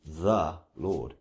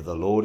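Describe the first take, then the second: First: "The" drawn out and set apart before "Lord"; emphasize "The", then let "Lord" follow; stress on THE. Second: Said in the usual way. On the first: Shown as a demonstration. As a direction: lean on "The" as a word by itself. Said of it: "then I would emphasize each word".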